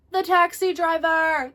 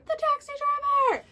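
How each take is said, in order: First: High, loud, slow triumphant announcement; excited reveal. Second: Very high squeal of disbelief; squealed repeat. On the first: Telling viewers who answered her phone, big excited reveal. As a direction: land the punchline big and drawn out. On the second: Repeating to viewers the taxi driver twist, squealing. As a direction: top the first reveal with a shriek. Repeats the reveal even higher. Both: Real, not acted.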